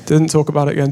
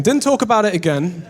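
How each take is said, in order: First: Said in the usual way. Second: Laughing repeat. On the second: Shown as a demonstration. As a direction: repeat "Didn't talk about it again" through a laugh with a rising end. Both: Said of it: "and we didn't talk about it again".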